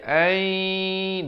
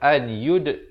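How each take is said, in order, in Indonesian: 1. Bunyi n menyatu menjadi y yang bersengau dan dipanjangkan. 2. Bunyi n diucapkan dengan jelas sebelum y. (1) "tapi baca ay, dua harakat masuk beserta dengung" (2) "Asalnya an yud"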